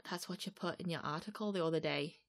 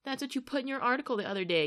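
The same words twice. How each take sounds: First: Soft attempt at a Manc accent. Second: Angry retort. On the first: Shown as a demonstration. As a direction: try the line in a Manc accent. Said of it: "like, a Manc accent". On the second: Retold or imitated. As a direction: throw the line back angrily. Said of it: "Phil Neville just spits back".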